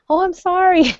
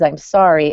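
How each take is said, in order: First: Much higher, sing-song mock "Oh, I'm sorry"; mock kid apology. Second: Said in the usual way. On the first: Mother mocking her kids' easy apology, high mock child voice. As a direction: send up a kid's empty sorry. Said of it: "walk all over us saying". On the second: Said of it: "the words".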